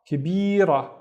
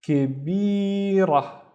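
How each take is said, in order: First: Said in the usual way. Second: "كبيرة" slowly, higher, with a long middle syllable; slow sounding-out. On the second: Shown as a demonstration. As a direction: draw out each syllable of "كبيرة". Teacher sounds out word, then repeats.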